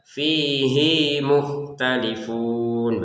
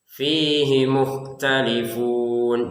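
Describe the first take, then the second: First: The vowel in 'hi' is drawn out long. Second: The vowel in 'hi' is short. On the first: The speaker calls it wrong. "Jadi jangan dibaca ... Hi-nya itu pendek saja ya" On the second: The speaker calls it right. "hi-nya ini pendek"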